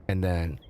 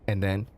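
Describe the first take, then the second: No difference in how they are said.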